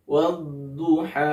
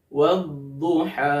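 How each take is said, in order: Both takes have the same delivery.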